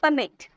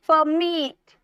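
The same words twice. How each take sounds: First: The second syllable is not stressed. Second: The stress is on the second syllable. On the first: The speaker calls it wrong. "Direct नहीं बोला" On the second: The speaker calls it right. "तो जोड़ दे रहे हैं आप"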